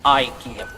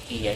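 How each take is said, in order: First: The word is said with English pronunciation. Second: The word is said with Swedish pronunciation. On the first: "rather than the anglicized one" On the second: "I prefer using the original pronunciation in those languages"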